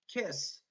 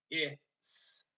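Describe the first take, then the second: First: Said in the usual way. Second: "k-, i-, s" as three separate sounds; sounded out. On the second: Shown as a demonstration. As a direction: say "k-, i-, s" sound by sound, short i. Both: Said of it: "when I finger spell kiss".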